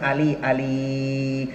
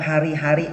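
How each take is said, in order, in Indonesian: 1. Kata itu diucapkan dengan L menggantikan R. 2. Kata itu diucapkan dengan bunyi R yang jelas. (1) "R itu paling sulit Pak" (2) "Kalau ngomong hari-hari"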